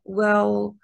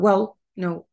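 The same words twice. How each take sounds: First: "well" stressed and stretched long; drawn-out starter. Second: "well" said quickly, without lengthening; quick, short. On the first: Teacher showing learners the natural starter, lengthened "well". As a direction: hold on to "well" instead of rushing it. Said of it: "stress كده وبيطولوها". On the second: Teacher showing how speakers don't say it, quick "well". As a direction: cut "well" short, no drawn vowel. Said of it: "مش بيقولوها بسرعة". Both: Shown as a demonstration.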